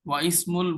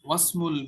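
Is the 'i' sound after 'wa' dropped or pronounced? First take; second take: pronounced; dropped. First: The i sound is pronounced after wa. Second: The i sound is dropped after wa. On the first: The speaker calls it wrong. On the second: The speaker calls it right.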